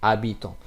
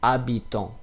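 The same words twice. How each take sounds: The two takes are said the same way.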